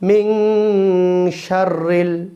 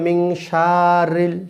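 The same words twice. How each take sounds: First: The vowel in 'sha' is kept short. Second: The vowel in 'sha' is drawn out long. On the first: The speaker calls it right. "শা কোনো টান নেই" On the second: The speaker calls it wrong. "অনেকে বলে মিং শারিল, শারিল বললে ভুল হবে"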